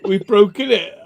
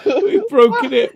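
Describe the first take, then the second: First: Said in the usual way. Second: High-pitched, slow, broken up by laughter; laughing. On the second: Real, not acted. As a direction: laugh it out in disbelief. Laughing after breaking something.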